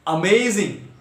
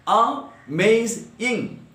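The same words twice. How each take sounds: First: Said in the usual way. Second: "amazing" drawn out slowly in three separate beats; syllable by syllable. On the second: Shown as a demonstration. Teacher counting syllables for the class, syllable by syllable. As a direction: break "amazing" into three slow, detached parts. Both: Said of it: "three syllables".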